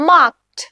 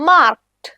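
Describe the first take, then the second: The two takes are said the same way.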